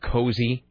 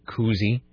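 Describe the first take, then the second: First: The first vowel is an 'oh' sound. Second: The first vowel is an 'oo' sound. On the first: This is the original pronunciation. "when did the pronunciation of cozy change" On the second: This is the newer pronunciation. "change to koozie"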